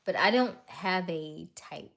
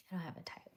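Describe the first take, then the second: First: Loud, emphatic DON'T; punched-up DON'T, then easing off; emphatic denial. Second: Hushed, whispered repeat; near-silent murmur to yourself; whispered aside. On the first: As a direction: state it firmly, leaning hard on DON'T. Firm statement, then repeats it low. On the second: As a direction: say it under your breath. Repeats the denial under her breath. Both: Real, not acted.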